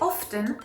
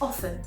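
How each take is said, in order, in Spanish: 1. El sonido T se pronuncia en medio. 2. El sonido T es mudo en medio. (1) "one I am very guilty of" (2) "it should be silent"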